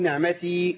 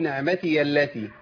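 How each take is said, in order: First: The word ends with a stop, not joined onward. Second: The word's ending runs straight into the next word. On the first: The reader pauses at this word. "لو وقفت عليها أقول" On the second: The reader continues without pausing. "لو وصل أقول"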